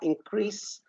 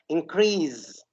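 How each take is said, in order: First: The word ends with an s sound. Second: The word ends with a z sound. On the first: The speaker calls it right. "they are not Z sound, they are increase" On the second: The speaker calls it wrong. "I used to say them increase"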